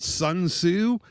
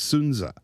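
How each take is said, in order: First: The name is said in an anglicized way. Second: The name is said in a Chinese-style way. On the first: The speaker calls it wrong. "that's not how you say the guy's name in Chinese" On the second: The speaker calls it right. "And that's the correct"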